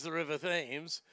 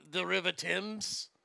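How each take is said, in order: First: "Thames" with a soft th, rhyming with "names"; spelling pronunciation of Thames. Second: "Thames" with a hard t, like "temz"; correct British Thames. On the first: Mock-British pitchman naming the river, "Thames" said as "thaymz". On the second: Mock-British pitchman correcting the river name, "Thames" said as "temz". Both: Acted.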